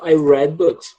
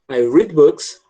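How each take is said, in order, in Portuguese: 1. A palavra 'read' tem a vogal curta 'e'. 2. A palavra 'read' tem a vogal longa 'ee'. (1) "no passado eu falo" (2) "no presente eu falo read"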